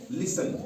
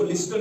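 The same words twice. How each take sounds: First: लिसन with no T after the S; silent T. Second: लिस्टन with an audible T before N; T pronounced. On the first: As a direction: leave the T out of लिसन. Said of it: "यहाँ टी silent रहेगा". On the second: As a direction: sound the T in लिस्टन. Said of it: "इसको लिस्टन नहीं पढ़ते हैं". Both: Shown as a demonstration.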